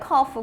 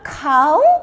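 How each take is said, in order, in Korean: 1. 모음이 짧은 u이고 끝에 f가 있어요. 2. 모음이 ow이고 끝에 f가 없어요. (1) "이건 커프야" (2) "카우로 읽어 아우를 읽어요"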